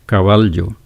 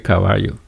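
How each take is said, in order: First: The ll is said as an l sound. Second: The ll is not said as an l sound. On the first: This is how the letter is supposed to sound. "This one it should be pronounced l" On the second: This is how people usually talk. "we say caballo"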